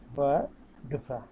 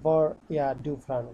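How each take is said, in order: First: The words are run together into one stretch. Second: Each word is said separately and in full.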